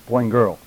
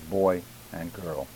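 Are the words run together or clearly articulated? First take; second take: run together; clearly. First: The words are slurred and run together. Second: Each word is clearly and separately articulated. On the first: The speaker calls it wrong. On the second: The speaker calls it right.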